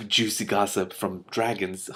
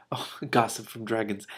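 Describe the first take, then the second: First: Slow, relishing gleeful aside. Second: Said in the usual way. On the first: Real, not acted. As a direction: savour the juicy word.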